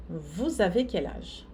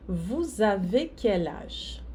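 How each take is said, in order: First: Said in the usual way. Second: "Vous avez quel âge?" said slowly, word by word; a slow teacher's model line; slow model sentence. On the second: Shown as a demonstration. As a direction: lay out each word slowly for the learners. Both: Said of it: "la dernière".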